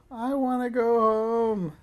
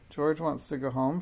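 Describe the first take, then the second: First: Loud, high, drawn-out wail; high childish bawling; howling. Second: Plain, mildly bold statement; a touch of courage, no wailing; brave. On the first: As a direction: howl it slowly like an unhappy child. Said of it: "George began to howl". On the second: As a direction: speak up bravely, voice steady. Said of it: "Frances spoke up bravely". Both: A narrator's reading.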